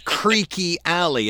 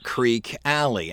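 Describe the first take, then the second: First: The first word is said with two syllables. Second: The first word is said with one syllable. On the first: The speaker calls it right. "It is Creaky Alley" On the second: The speaker calls it wrong. "It's not Creek Alley"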